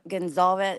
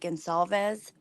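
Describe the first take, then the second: First: The middle consonant is a buzzing z sound. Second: The middle consonant is a hissing s sound. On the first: The speaker calls it wrong. "she's using like the Z" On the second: The speaker calls it right. "it's actually Gonsalves, like a s"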